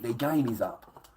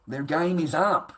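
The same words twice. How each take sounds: First: Said in the usual way. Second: "Their game is up" said slow, higher and louder; emphatic repeat. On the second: Shown as a demonstration. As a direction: hammer home "Their game is up".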